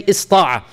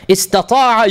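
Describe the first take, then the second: First: Ista'a with the ta cut out; clipped pronunciation of ista'a; shortened form ista'a. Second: Istata'a with the middle ta fully sounded; careful full pronunciation of Istata'a; full form istata'a. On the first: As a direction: say ista'a as three syllables, is-ta-a. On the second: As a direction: say Istata'a as four clear syllables, is-ta-ta-a. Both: Shown as a demonstration. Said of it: "you can say ista'a".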